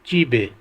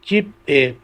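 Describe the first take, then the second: First: The final consonant carries over into the next syllable. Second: The final consonant stays with the first syllable. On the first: "pronounce होगा" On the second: "अगला लफ्ज़ है"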